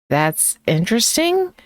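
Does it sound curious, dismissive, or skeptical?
skeptical. It is said slowly and skeptically. It expresses doubt. "said slowly with a raised eyebrow"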